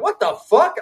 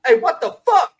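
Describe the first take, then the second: First: High, stunned cry of disbelief; shocked outburst. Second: High startled yelp as the cookout guy; imitating the cookout guy. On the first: Retold or imitated. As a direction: yelp it out in disbelief. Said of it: "I'm like". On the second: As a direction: squeak it out like the viral clip guy. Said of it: "he goes".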